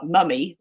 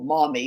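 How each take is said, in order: First: The word is said with a British vowel. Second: The word is said with an American vowel.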